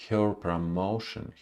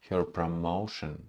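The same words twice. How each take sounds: Both takes have the same delivery.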